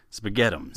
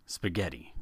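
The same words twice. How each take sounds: First: Spaghettums said as Mac says it, with the ending swapped for -ums; Mac's spaghettums. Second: Said in the usual way. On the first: Retold or imitated. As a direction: say spaghettums playfully, stretching the tail into -ums. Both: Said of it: "or as Mac puts it".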